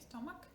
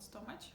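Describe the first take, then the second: First: It ends with a k sound. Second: It ends with a ch sound. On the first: The speaker calls it right. "we say k" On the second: The speaker calls it wrong. "not stomach"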